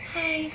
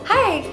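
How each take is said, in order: First: It sounds weak and timid. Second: It sounds firm and confident.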